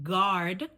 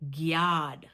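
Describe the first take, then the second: First: The g is said without a y-glide. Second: The g is followed by a y-glide. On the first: "instead of saying guard" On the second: "we say gyard"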